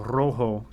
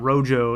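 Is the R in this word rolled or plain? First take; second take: rolled; plain. First: The R is rolled with a trill. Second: The R is said plainly, without a roll. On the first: The speaker calls it right. "You got to roll that R" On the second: The speaker calls it wrong. "it's not rojo"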